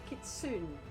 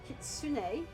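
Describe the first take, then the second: First: The final vowel is dropped or weak. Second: The final vowel is clearly pronounced. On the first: The speaker calls it wrong. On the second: The speaker calls it right.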